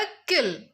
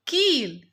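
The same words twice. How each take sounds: First: "किल" with a quick clipped short i; short i in kil. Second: "कील" with the ee held long and drawn out; long ee in kiil. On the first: Teacher to children, saying the short i quickly. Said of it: "छोटी की मात्रा लगा देंगे". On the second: Teacher to children, drawing out the long ee. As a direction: stretch the ee in "कील". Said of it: "ये मात्रा को हम खींच कर पढ़ेंगे". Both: Shown as a demonstration.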